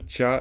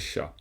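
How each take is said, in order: First: The syllable begins with a 'ch' sound. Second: The syllable begins with an 'sh' sound. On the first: The speaker calls it right. "Ça, c'est un tcha" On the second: The speaker calls it wrong. "c'est pas un chat"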